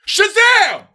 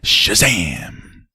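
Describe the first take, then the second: First: It is said forcefully, with emphasis. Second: It is said flatly, in passing.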